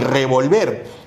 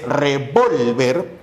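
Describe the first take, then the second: First: RevolVER, weight on the last syllable; stress on final syllable. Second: Slow reVOLver, VOL stretched and stressed; stress on middle syllable. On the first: Teacher setting two words side by side, revolver stressed on VER. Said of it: "el acento está en ver". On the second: Teacher setting two words side by side, revolver stressed on VOL. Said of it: "el acento se encuentra en vol". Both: Shown as a demonstration.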